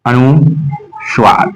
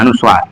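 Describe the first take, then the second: First: अनुस्वार very slowly in two parts; slow dictation. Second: Said in the usual way. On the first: Shown as a demonstration. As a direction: break it as अनु, pause, Suar. Teacher breaks term into parts.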